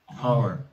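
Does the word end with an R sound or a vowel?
R sound. The word ends with an R sound. This is the local Tennessee way of saying it.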